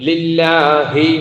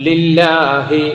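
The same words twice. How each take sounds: No difference in how they are said.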